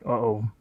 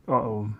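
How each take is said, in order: Both takes have the same delivery.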